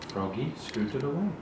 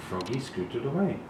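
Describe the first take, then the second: No difference in how they are said.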